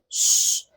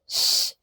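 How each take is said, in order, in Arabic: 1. الصوت sh عادي. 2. الصوت صفير هوائي. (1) "وليست ش، فما ينفعش ان انا اعملها كانها شين عاديه" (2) "خلي بالكوا ش"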